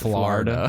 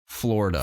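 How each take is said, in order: First: The first syllable has an 'ar' vowel. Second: The first syllable has an 'or' vowel. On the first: The speaker calls it wrong. "not F L A R" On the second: The speaker calls it right. "it's F L O R"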